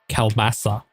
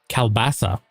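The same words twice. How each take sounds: Both takes have the same delivery.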